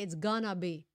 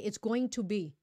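First: "Going to" is reduced to "gonna". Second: "Going to" is said in full. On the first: "like that, when I say it's gonna be" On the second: "I didn't say it's going to be"

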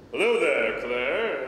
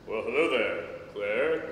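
First: It is said more loudly. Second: It is said more softly.

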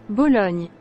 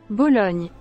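The two takes are said the same way.

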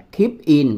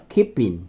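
First: The two words are said separately. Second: The final P links into the next word. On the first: The speaker calls it wrong. "nó không đọc là keep in" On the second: The speaker calls it right. "mà nó đọc là keeping"

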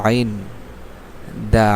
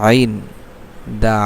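The two takes are said the same way.

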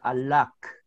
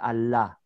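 First: The word ends with a final consonant sound. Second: The word ends on an open vowel. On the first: The speaker calls it wrong. "you are not supposed to pronounce it alak" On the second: The speaker calls it right. "It's Allah"

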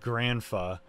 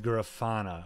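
First: The word is said with two syllables. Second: The word is said with three syllables. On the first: The speaker calls it wrong. "it's not Granfa" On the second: The speaker calls it right. "That's how you pronounce it"

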